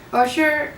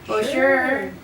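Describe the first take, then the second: First: It sounds willing and genuinely agreeable. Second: It sounds reluctant and dismissive. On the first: Permission is sincerely given. "like okay, yeah, sure, you can go" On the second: The listener had better not go. "like sure, whatever"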